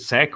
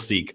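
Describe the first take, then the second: First: The vowel is short, rhyming with 'deck'. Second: The vowel is long, rhyming with 'week'. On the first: "I've been saying sec for ages" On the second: "people who call it seek because you know sequence"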